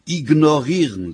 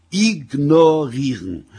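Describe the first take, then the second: First: "Ignorieren" said firmly and louder; loud, firm correction on "Ignorieren"; emphatic repeat. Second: "Ignorieren" very slow, louder, each syllable stretched; drawn-out, emphatic "Ignorieren"; syllable-by-syllable emphasis. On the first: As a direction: punch out "Ignorieren" as the answer. Husband repeats word for wife. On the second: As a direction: spell out "I-gno-rieren" for a slow listener. Husband spells it out slowly. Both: Acted.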